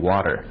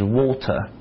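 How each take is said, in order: First: It has a relaxed American T sound. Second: It has an exaggerated, crisp British T sound.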